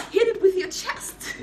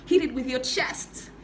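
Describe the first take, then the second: First: Laughing. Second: Said in the usual way. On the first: Shown as a demonstration. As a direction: shout it again through a laugh.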